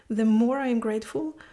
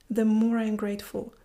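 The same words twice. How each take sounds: The two takes are said the same way.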